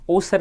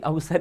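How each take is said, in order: First: The word begins with a plain 'o' sound. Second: The word begins with an 'av' sound. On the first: The speaker calls it wrong. "ओसर नहीं है" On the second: The speaker calls it right. "उच्चारण तो इसका भी अवसर ही हो रहा है"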